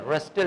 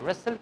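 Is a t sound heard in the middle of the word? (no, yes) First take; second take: yes; no. First: A t sound is heard in the middle. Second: No t sound is heard in the middle. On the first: The speaker calls it wrong. "रस्टल नहीं" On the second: The speaker calls it right. "रसल क्या आता है?"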